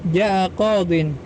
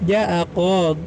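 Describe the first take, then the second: First: The last word ends with an in sound. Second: The last word ends on a bare d. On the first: The phrase is read in connected speech. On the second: The reader stops at this word.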